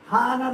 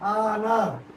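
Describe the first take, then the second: First: It starts with an audible H sound. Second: It starts with a vowel, no H sound. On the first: The speaker calls it wrong. "హానర్ అని కదా" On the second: The speaker calls it right. "ఇక్కడ హెచ్ ఉంది కానీ హెచ్ silent"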